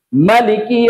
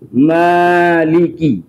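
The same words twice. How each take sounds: First: The first vowel is kept short. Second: The first vowel is held long. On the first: This follows the Qalun and Warsh reading. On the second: This follows the Asim and Al-Kisai reading.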